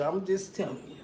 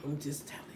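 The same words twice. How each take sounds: First: Said in the usual way. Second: Whispered I'm just telling you; confiding whisper to the audience; whispered aside. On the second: Shown as a demonstration.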